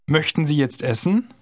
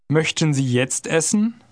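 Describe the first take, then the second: First: It is said fast, at conversational speed. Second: It is said slowly and carefully.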